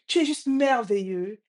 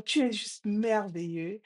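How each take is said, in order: First: Lightly raised, emphatic praise; father's call. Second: Imitated echo. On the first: Retold or imitated. Father praises the echo, lightly calling out. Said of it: "Il dit". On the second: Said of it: "La voix répond".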